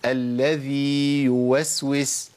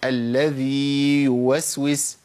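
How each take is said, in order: Both takes have the same delivery.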